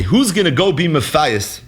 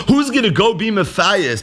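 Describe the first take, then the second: First: Said in the usual way. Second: "Who's gonna go be Matthias?" repeated higher, with weight on "Who's"; emphatic repeat. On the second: Shown as a demonstration. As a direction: lift the line up and lean on "Who's". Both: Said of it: "You hear the symmetry between these two Gemaras?".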